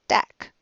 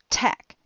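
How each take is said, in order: First: The first consonant has no puff of air. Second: The first consonant has a puff of air. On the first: The speaker calls it wrong. "if I swapped those sounds and said dack" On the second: The speaker calls it right. "instead of tack"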